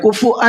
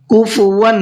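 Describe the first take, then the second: First: The middle consonant is a glottal stop. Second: The middle consonant is a w sound. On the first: The speaker calls it wrong. "कुफुअन नहीं है" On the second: The speaker calls it right. "कुफुवन है"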